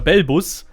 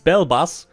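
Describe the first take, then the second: First: The name is pronounced with German sounds. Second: The name is pronounced with English sounds. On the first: "in German it's a Bellbus" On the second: "in English it's Bellbus"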